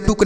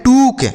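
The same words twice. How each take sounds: First: टुक with a short u, as the teacher's wrong example; टुक mispronounced with a short u; wrong pronunciation. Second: टूक with a long oo as in boot; टूक said correctly with a long oo; correct pronunciation. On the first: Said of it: "यह गलत उच्चारण हो गया". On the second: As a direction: stretch the vowel in टूक to a long oo. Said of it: "इसे हम पढ़ते हैं टूक". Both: Shown as a demonstration.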